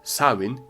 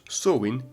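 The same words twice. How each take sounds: First: It is said the Scottish Gaelic way. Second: It is said the Irish Gaelic way. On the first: "in Scottish Gaelic" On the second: "in Irish Gaelic"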